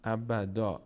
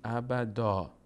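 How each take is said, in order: First: The word ends with a long a vowel. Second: The word ends with a long a vowel.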